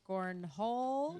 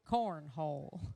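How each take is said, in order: First: The voice rises at the end. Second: The voice falls at the end.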